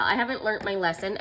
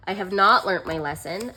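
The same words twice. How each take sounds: First: Said in the usual way. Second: "not" pulled apart and pushed; stress on not. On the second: Shown as a demonstration. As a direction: hit "not" hard, with a rise at the end.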